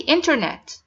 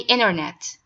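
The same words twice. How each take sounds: First: The T after the N is clearly pronounced. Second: The T after the N is dropped entirely. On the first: "I say" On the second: "the Americans say"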